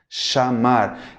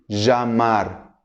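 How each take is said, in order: First: The ll is said like an sh sound. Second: The ll is said like a zh sound. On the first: This is how it is said in Argentina and Uruguay. "vai ser parecido ao som do C H do português" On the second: This is how it is said in some other countries. "como si fuera uma J do português"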